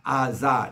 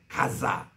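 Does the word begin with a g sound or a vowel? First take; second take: vowel; g sound. First: The word begins with a vowel, no g sound. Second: The word begins with a hard g sound. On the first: This is how Hebrew speakers say the name. "아자 아자 이렇게 그들이 읽습니다" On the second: This is how Arabic speakers say the name. "가인 할 때 가자 하지"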